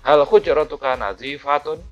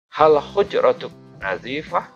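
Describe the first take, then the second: First: The final vowel endings are fully pronounced. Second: The final vowel endings are cut off.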